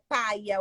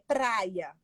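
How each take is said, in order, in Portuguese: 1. O som do R depois do P é omitido. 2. O som do R depois do P é pronunciado. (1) "é paia ou praia" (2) "é praia"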